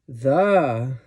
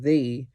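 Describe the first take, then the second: First: The word is said with heavy extra stress. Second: The word is said plainly, without extra stress. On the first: This is the best one. "when we put extra stress on them" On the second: It simply introduces the noun. "instead of me saying the"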